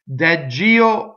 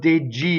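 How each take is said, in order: First: The stressed E vowel is open. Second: The stressed E vowel is closed. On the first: "either open" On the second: "or closed"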